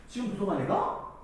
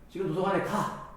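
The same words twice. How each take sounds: First: The pitch rises at the end. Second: The pitch falls at the end. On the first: It is a question. "이런 식으로 억양을 올리면 의문문이 될 수 있지" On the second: It is a statement or a command. "평서문이나 명령형으로 말할 수 있고"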